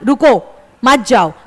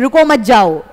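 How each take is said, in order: First: There is a pause after रुको. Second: There is a pause after मत.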